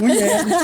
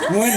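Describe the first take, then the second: First: The name is said like 'nguyen'. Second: The name is said like 'ngun'. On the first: The speaker calls it wrong. "Bukan nguyen" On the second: The speaker calls it right. "Ngun, ngun"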